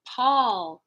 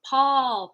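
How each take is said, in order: The two takes are said the same way.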